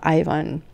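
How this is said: The name is pronounced the Canadian way. "and here in Canada"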